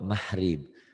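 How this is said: The middle consonant is softened to an h sound. "Kalau orang Jawa mahrib"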